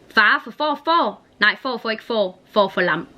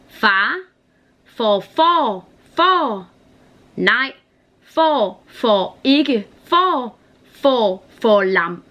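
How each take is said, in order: First: It is said at a faster pace. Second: It is said at a slower pace.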